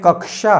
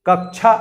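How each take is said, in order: First: The middle cluster is said as k-sh. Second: The middle cluster is not said as k-sh. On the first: The speaker calls it right. "ये वास्तव में कक्षा है" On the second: The speaker calls it wrong. "कक्षा ऐसे बोल देते हैं, कक्षा वास्तव में शुद्ध उच्चारण नहीं है"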